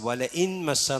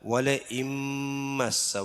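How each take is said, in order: First: The n is pronounced separately before m. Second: The n merges into a nasal m sound. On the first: The speaker calls it wrong. "എന്നല്ല" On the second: The speaker calls it right. "നൂനിന് മീമിലേക്ക് ചേർത്ത് മണിച്ചിട്ട് ഓതണം"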